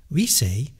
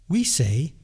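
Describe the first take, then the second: The two takes are said the same way.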